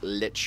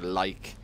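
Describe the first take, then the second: First: Short i vowel, ending in a ch sound. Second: Long eye vowel, ending in a k sound. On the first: "not Lich" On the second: "or Like"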